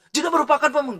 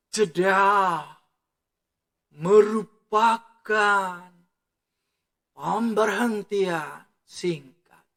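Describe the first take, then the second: First: High, hurried run-through with no pauses; rushed reading. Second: Very slow, every word stretched and set apart; slow with pauses. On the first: Teacher shows students how not to read, rushed. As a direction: rattle off JEDA MERUPAKAN without a breath. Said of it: "jangan cepat-cepat". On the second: Teacher shows students where pauses go, slow and spaced. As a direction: pause after JEDA and after MERUPAKAN, drawing each out. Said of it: "Jeda itu harus". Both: Shown as a demonstration.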